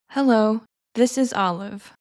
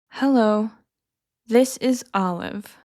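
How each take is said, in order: First: It is spoken at a normal speed. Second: It is spoken slowly. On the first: "then at a normal pace" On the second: "I'll say each one slowly first"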